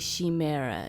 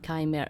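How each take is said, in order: First: It begins with a ch sound as in church. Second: It begins with a hard k sound. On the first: The speaker calls it wrong. "you do not say chimera" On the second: The speaker calls it right. "you say chimera"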